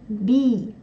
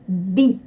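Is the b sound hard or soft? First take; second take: soft; hard. First: The consonant is softened before the vowel. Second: The consonant stays hard before the vowel. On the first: The speaker calls it wrong. "как у нас в русском языке это происходит, мы говорим «мягко»" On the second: The speaker calls it right. "Здесь согласный не смягчается"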